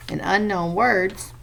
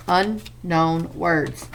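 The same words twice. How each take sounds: First: Said in the usual way. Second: "unknown" drawn out very slowly, weight on un; slow stress on unknown. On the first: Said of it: "teacher says the term again". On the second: Shown as a demonstration. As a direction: stretch "unknown" slowly for the class. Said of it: "teacher repeats the vocabulary term".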